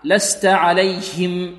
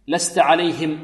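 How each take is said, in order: First: A small extra vowel follows the h sound. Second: The h sound is pronounced clearly. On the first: The speaker calls it wrong. "والبعض يأتي في صويت معها" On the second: The speaker calls it right. "لابد من توضيح الهاء"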